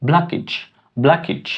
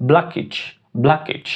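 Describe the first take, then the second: Both takes have the same delivery.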